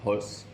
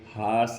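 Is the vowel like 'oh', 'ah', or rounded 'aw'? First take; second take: aw; ah. First: The vowel is a rounded open 'aw' sound. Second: The vowel is an open unrounded 'ah' sound. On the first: The speaker calls it right. "ये round mouth करके" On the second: The speaker calls it wrong. "ना ये हास है"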